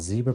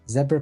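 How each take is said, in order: First: It is said with an American pronunciation. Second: It is said with a non-American pronunciation.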